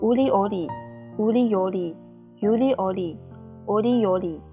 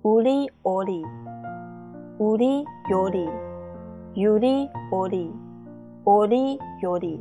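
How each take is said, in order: First: It is said quickly, sped up. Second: It is said at a normal, steady speed.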